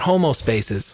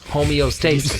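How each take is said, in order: First: The word is said as homo-stasis, without the e. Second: The word is said as homeo-stasis, with the e. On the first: The speaker calls it wrong. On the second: The speaker calls it right.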